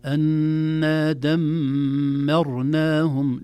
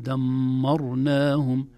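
First: دمرناهم drawn out slowly, the mim light despite the ra; thin mim. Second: دمرناهم with the mim wrongly thickened by the ra; heavy mim. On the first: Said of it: "لا نفخم الميم". (ترقيق الميم في دمرناهم) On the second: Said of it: "لا نقول". (تفخيم الميم خطأ) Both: Shown as a demonstration.

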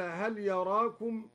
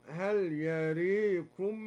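First: Said in the usual way. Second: يريكم with the a tilted to e, very slow; imala on yarakum. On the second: Shown as a demonstration. Teacher contrasts al-Duri's imala, very slowly. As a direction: stretch يريكم and lean the a towards e. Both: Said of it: "أما لا يراكم".

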